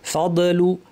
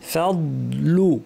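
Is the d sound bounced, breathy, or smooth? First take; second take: bounced; smooth. First: The d sound has an echoing bounce. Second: The d sound fades gently into l. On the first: The speaker calls it wrong. "কলকলা করে ভুলে বলেন" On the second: The speaker calls it right. "আস্তে আস্তে দদের আওয়াজ মিলিয়ে যাবে"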